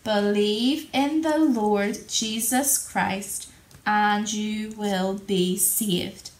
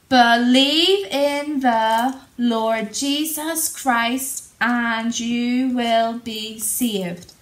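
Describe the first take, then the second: First: The verse is said at normal volume. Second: The verse is shouted very loudly. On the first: "let's say it all together normally" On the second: "Let's shout it really loudly"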